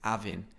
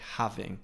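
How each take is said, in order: First: The initial H sound is dropped. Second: The initial H sound is pronounced.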